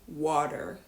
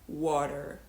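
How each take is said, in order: First: The middle T becomes a soft D. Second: The middle T becomes a soft D.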